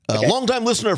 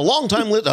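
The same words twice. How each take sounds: First: It is said in an exaggerated announcer voice. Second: It is said in an ordinary speaking voice.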